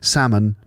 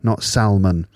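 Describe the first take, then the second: First: The L sound is not pronounced. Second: The L sound is pronounced. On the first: The speaker calls it right. "the L is silent" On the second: The speaker calls it wrong.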